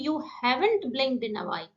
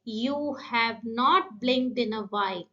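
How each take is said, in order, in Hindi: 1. 'Have not' को जोड़कर 'haven't' की तरह बोला जाता है। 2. 'Have not' दो पूरे शब्दों की तरह बोला जाता है।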